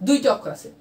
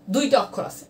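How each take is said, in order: Both takes have the same delivery.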